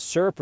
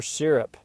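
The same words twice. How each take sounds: First: "syrup" said as SUR-up; first syrup pronunciation. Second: "syrup" said as SEER-up; second syrup pronunciation. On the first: Asking viewers which word is right, "syrup" as SUR-up. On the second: Offering viewers the other way, "syrup" as SEER-up. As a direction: say "syrup" with a short ee sound first. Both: Shown as a demonstration. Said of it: "Is it syrup or syrup?".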